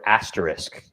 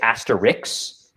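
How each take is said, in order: First: The word ends with an 'isk' sound. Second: The word ends with an 'iks' sound. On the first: The speaker calls it right. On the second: The speaker calls it wrong.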